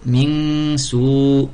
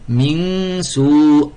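No difference in how they are said.

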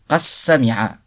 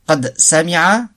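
First: The d merges into the s, with no d. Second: The d is pronounced separately before the s.

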